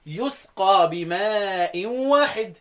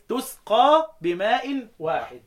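First: يسقى with a clear y sound, drawn out slowly; reading with ya. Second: تسقى with a clear t sound, drawn out slowly; reading with ta. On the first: Teacher showing students the reading يسقى with ya, slow recitation. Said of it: "تبقى بالياء". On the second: Teacher showing students the reading تسقى with ta, slow recitation. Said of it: "التأنيث". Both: Shown as a demonstration.

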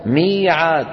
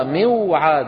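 First: "ميعاد" with long smooth ee; changed easy form. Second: "موعاد" slow as miw-'aad; original unaltered form. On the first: Teacher gives another example, "ميعاد" as mee-'aad. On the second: Teacher gives the word's origin, "موعاد" slow as miw-'aad. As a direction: hold the waw after kasra in "موعاد". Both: Shown as a demonstration. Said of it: "أصلها موعاد".

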